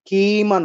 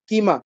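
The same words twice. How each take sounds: First: The first vowel is drawn out long. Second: The first vowel is kept short. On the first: The speaker calls it wrong. "কিমা নয়" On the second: The speaker calls it right. "ক রস্বইকারটা হচ্ছে রস্বস্বর, এটা দীর্ঘ হবে না"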